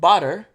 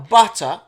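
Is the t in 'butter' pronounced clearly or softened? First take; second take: softened; clearly. First: The t is softened, American style, with an r. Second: The t is pronounced clearly, British style. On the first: The speaker calls it wrong. "It doesn't have the R, not butter" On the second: The speaker calls it right. "you actually pronounce the letters that are on the words"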